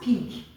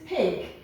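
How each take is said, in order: First: The vowel is pronounced a different way. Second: The vowel is pronounced the standard way. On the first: The speaker calls it wrong. "not pig" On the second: The speaker calls it right. "This is pig"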